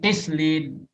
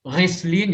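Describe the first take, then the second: First: The word begins with a qaf sound. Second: The word begins with a ghain sound. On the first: The speaker calls it wrong. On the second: The speaker calls it right. "menjadikan ghain qaf"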